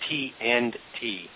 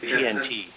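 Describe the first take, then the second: First: Each word is said fully and separately. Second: The words run together quickly as one. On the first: It names the working group. "It's T and T" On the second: It sounds like the name of an explosive. "you say that too fast"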